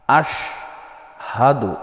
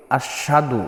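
First: আশহাদু slow with a clear হ; correct Ashhadu. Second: আশহাদু said without the h, as আশাদু; wrong Ashadu. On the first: Teacher showing the correct আশহাদু. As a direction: sound the হ in আশহাদু slowly. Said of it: "এটা হবে". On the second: Teacher showing the common wrong আশহাদু. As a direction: drop the হ in আশহাদু. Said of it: "অনেকেই বলে". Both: Shown as a demonstration.

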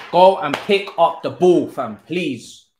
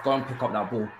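First: Higher and louder, begging the player; frustrated yell. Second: Said in the usual way. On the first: Real, not acted. Gamer yelling at his player to win the ball. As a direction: shout it at the screen, fed up.

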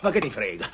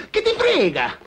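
First: Said in the usual way. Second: Pitched way up, louder; what do you care, shouted up high; loud exasperated repeat. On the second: Acted. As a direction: snap it back higher. Friend brushes off question, repeated.

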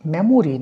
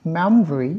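First: মেমোরি with all three syllables, me-mo-ri; মেমোরি said in full as the wrong version; full memory, wrong. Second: মেমোরি said as two syllables, mem-ri; মেমোরি clipped to mem-ri; elided memory. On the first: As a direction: spell out every vowel of মেমোরি. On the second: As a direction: drop the middle vowel in মেমোরি. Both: Shown as a demonstration. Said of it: "মেমোরি না".

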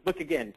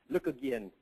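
First: Said in the usual way. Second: Lightly attempted Australian accent; Aussie accent. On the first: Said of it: "he had a bit of an Aussie accent". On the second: Quoting a colleague who challenged him, imperfect Aussie accent. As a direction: have a rough go at an Aussie accent. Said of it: "a bit of an Aussie accent".

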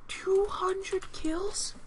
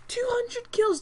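First: Slow, drawn-out question in disbelief; stunned disbelief. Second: Higher, flat statement of shock; incredulous exclaim. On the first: Player reacts to the enemy's two hundred kills with slow disbelief. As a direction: stretch each word as if you can't believe it. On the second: Player repeats the enemy's kill count in shocked disbelief. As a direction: state it like it's sinking in. Team lost, player stunned. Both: Real, not acted.

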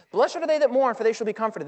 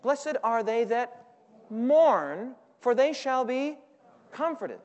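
First: Said in the usual way. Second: Each word stretched slowly, inviting the congregation; slow, drawn-out scripture reading; slow drawn-out recitation. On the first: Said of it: "repeats the verse at normal pace". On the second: Shown as a demonstration. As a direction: recite it slowly so they can join in. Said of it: "what does your Bible say".

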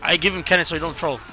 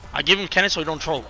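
The two takes are said the same way.

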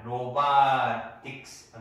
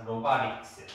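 First: 로바릭스 said slowly as 로바틱스; hard T. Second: 로바릭스 with a light flapped R; softened T. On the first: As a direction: keep a clear T in place of 릭 in 로바릭스. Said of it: "로바틱스가 아니고". ('로바릭스'를 ㅌ 소리 살려 천천히 '로바틱스'로) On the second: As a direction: turn the T into a tap in 로바릭스. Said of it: "리을 발음입니다". ('로바릭스'의 T를 ㄹ로 부드럽게) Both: Shown as a demonstration.

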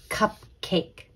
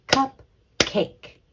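First: Said in the usual way. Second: "Cupcake" split into CUP, KAKE, both beats punched; clapped-out syllables. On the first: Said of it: "Let's clap out the syllables". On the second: Shown as a demonstration. Teacher clapping out the syllables, "Cupcake" in two beats. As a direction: break "Cupcake" into two separate, higher beats. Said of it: "Let's clap".

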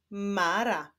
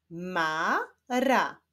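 First: Said in the usual way. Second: "Mara" slowly split into ma, ra; syllable by syllable. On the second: Shown as a demonstration. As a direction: sound out "Mara" with a break between syllables. ("Mara" powoli, z podziałem na ma, ra) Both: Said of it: "Łączymy ze sobą sylaby".

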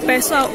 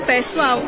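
The two takes are said the same way.

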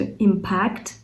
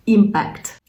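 First: Impact said as IM-pact, the first syllable stressed. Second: Impact said as im-PACT, the second syllable stressed. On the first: Teacher contrasting noun and verb: IM-pact, first syllable stressed. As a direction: say impact with the weight on IM. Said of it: "наголос, до речі, на першу частинку". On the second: Teacher contrasting noun and verb: im-PACT, second syllable stressed. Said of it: "наголос на другу частинку". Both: Shown as a demonstration.

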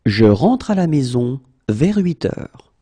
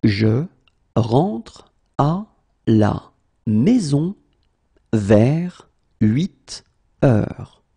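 First: Said in the usual way. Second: Long pause between chunks; slow, in chunks. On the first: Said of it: "teacher repeats full sentence". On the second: Shown as a demonstration. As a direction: lay it out chunk by chunk. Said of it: "teacher drills word by word".

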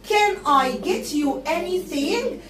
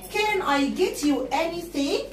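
Both takes have the same delivery.

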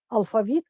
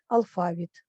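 First: "алфавіт" with the stress on the final "віт", rising; stress on last syllable. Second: "алфавіт" with the stress on "фа", falling at the end; stress on middle syllable. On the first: Teacher showing students the first accepted stress, al-fa-VIT. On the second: Teacher showing students the second accepted stress, al-FA-vit. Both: Shown as a demonstration. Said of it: "два наголоси".

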